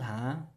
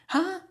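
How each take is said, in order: First: A light rising tag, casual and reassuring. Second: A sharp, shocked exclamation of surprise. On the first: It means okay or all right. "If it's going to be a rising intonation that's going up with that ha" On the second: The speaker is shocked and lost for words. "the shock intonation or the surprised intonation"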